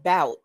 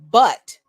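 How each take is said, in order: First: The vowel sounds like the one in 'out'. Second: The vowel sounds like the one in 'cup'. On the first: "some people would think it's pronounced bout, but it's not" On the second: "phonetically where it's pronounced but"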